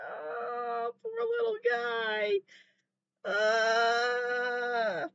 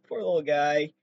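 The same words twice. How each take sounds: First: Much higher, softer crying pity; a high, soft whimper over the poor animal; near tears. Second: Said in the usual way. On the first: Real, not acted. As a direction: let the voice crack as if about to cry. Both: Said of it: "I'm gonna fucking cry".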